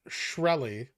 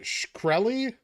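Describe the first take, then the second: First: No K sound is heard after the sh. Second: A K sound is heard after the sh. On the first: "is the K silent?" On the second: "is the K silent?"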